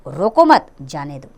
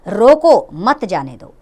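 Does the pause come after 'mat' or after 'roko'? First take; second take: after mat; after roko. First: The pause comes right after the word mat. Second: The pause comes right after the word roko. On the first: Do not stop them; let them go. "दूसरे वाक्य में रोकने से मना किया गया है और जाने को कहा गया है" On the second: Stop them; do not let them go. "पहले वाक्य में रोकने को कहा गया है और जाने को मना किया गया है"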